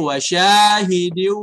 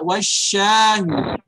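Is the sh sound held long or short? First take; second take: short; long. First: The sh sound is light and short. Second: The sh sound is pressed and held long. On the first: The speaker calls it right. "Tapi wasyahidi wa mashhud" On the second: The speaker calls it wrong. "Jangan ditekan shinnya, jangan dibaca wasyahid"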